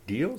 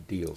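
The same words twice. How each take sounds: First: "Deal?" with the pitch rising at the end; questioning Deal. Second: "Deal" with a falling, settled ending; agreeing Deal. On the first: Offer put as a question. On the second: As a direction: accept with "Deal" as a statement. Answer accepting the offer. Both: Acted.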